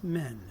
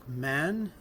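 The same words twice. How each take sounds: First: MEN with the A closed to E; closer E vowel. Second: MAN with an open A; open A vowel. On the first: Lecturer contrasting plural with singular, closer E in "men". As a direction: say "men" with a raised front E. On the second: Lecturer contrasting singular with plural, open A in "man". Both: Shown as a demonstration. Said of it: "Une fermeture de la voyelle A en E".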